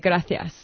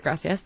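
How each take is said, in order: First: The c is said as a lisped th. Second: The c is said as a plain s. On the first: "in Spain, they say gracias. So they have this, like, lisp" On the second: "In Mexico or most places, you say gracias"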